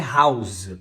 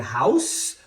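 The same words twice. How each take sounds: First: "house" ending in a voiced z; final Z sound. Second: "house" ending in a voiceless s; final S sound. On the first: Teacher contrasting verb with noun, "house" with final z. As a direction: buzz the end of "house" as a long z. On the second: Teacher contrasting noun with verb, "house" with final s. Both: Shown as a demonstration. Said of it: "de um S para um Z".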